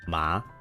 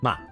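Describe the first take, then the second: First: The pitch rises like a question. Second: The pitch is hard with an abrupt stop. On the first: "If it's a line that goes up, it's like a question" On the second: "it's like a hard. ... just hard stop"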